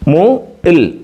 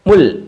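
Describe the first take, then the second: First: The syllables are said slowly and separately. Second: The syllables are said quickly as one.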